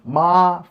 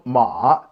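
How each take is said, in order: First: The pitch stays high and level. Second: The pitch dips low, then rises again. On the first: "first tone ma five five" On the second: "third tone ma two one three"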